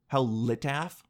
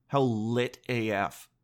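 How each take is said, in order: First: "af" pronounced as one syllable, like "aff"; "af" rhyming with "staff", not spelled out; said as a word. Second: "A F" said as two separate letters; slow, lower "A F" as initials; letters spelled out. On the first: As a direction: read "af" as a single word. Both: Shown as a demonstration. Says the slang both ways.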